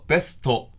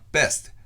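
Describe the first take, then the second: First: Extra vowels are added after the consonants. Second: The consonants are said without added vowels. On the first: The speaker calls it wrong. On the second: The speaker calls it right.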